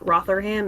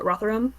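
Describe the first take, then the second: First: The name is said with an American pronunciation. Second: The name is said with an English pronunciation. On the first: The speaker calls it wrong. "rather than saying it Rotherham" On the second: The speaker calls it right. "it's uh, Rotherham"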